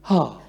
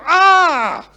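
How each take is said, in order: First: It sounds moved and touched. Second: It sounds angry and frustrated.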